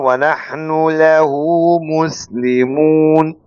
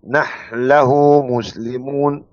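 First: The nun is pronounced clearly before the lam. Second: The nun merges into the following lam. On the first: "أما الإظهار" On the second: "فعند الإدغام"

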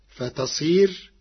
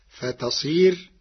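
Both takes have the same delivery.

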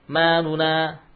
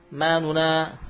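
The two takes are said the same way.

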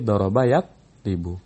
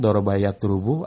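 First: The middle vowel of the second word is i. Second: The middle vowel of the second word is not i. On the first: The speaker calls it right. "Tapi doroba yatribu" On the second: The speaker calls it wrong. "gak boleh kita katakan"

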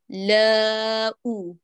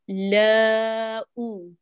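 The two takes are said the same way.

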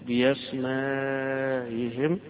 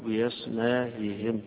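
First: The vowel before the hamza is held long. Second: The vowel before the hamza is kept short.

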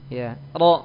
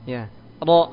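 Both takes have the same delivery.

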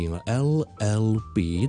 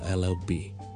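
First: The letters are said at normal speed. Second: The letters are said quickly and run together.

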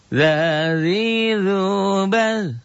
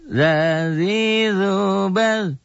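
No difference in how they are said.

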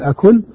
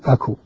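First: The word ends with an n sound. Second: The word ends without an n sound. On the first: "أن أذكر النون فأقول أكون" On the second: "أن أحذف النون فأقول أكو"

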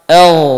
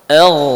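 No difference in how they are said.

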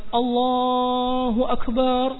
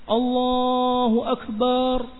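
The two takes are said the same way.

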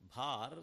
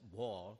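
First: The vowel is an open 'a' sound. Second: The vowel is a rounded 'o' sound. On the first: This is the Sanskrit form. "Sanskrit word" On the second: This is the Bengali form. "in Bengali it is pronounced as bhor"

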